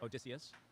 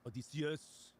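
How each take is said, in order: First: The name is said with English pronunciation. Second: The name is said with Greek pronunciation. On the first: "we would know him as Odysseus" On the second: "but in the Greek, it would be Odysseus"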